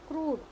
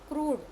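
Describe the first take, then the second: No difference in how they are said.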